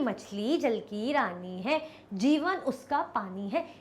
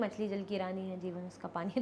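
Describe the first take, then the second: First: It is recited carefully with expressive rhythm. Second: It is said plainly without expressive rhythm. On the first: The speaker calls it right. "इस तरीके से मैं बना के अच्छे से रिसाइट करूंगी।" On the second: The speaker calls it wrong. "तो कैसा लगेगा?"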